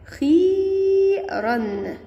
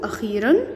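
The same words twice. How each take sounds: First: «أخيرًا» with the ي held very long and high; long-vowel demonstration. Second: Said in the usual way. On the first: Shown as a demonstration. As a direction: stretch the ee in «أخيرًا» far out, slowly. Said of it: "مد بالياء". («أخيرًا» بمدّ الياء طويلًا وبصوت أعلى) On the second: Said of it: "يلا نشوف مع بعض مد بالياء".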